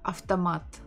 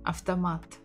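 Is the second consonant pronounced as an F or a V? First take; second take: F; F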